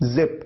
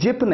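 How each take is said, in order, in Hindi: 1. शब्द की शुरुआत 'z' की आवाज़ से होती है। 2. शब्द की शुरुआत 'j' की आवाज़ से होती है। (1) "बल्कि जिप" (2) "जिप नहीं"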